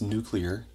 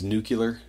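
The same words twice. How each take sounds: First: The word is pronounced just as it is spelled. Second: The word is not pronounced as it is spelled. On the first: The speaker calls it right. "read the word, realize it's nuclear, and say it like that" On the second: The speaker calls it wrong. "I really hate that"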